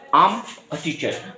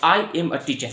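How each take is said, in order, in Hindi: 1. 'I am' संक्षिप्त होकर एक अक्षर में बोला जाता है। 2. 'I am' पूरा दो अक्षरों में बोला जाता है। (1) "लेकिन आप बोलिए" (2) "अब ये मत कहिए"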